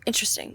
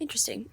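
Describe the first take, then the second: First: Whispered. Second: Said in the usual way. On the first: Shown as a demonstration. She repeats the word back to her friend, whispered. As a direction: breathe out Interesting as a whisper.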